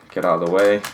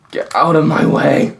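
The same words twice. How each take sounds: First: Said in the usual way. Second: Higher, louder angry yell; frustrated shout. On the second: Real, not acted. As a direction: bark it at the stuck piece. Yelling at the stuck puzzle.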